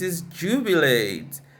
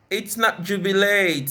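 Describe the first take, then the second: First: The stress falls on the third-last syllable. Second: The stress falls on a different syllable. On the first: The speaker calls it right. "usually stressed on the third syllable from the end" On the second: The speaker calls it wrong. "It's not"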